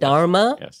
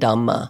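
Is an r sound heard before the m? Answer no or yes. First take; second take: yes; no. First: An r sound comes before the m. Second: No r sound comes before the m. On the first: This is the Sanskrit form of the word. "the dharma with an R, ... is Sanskrit" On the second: This is the Pali form of the word. "the Pali language ... you would say dhamma"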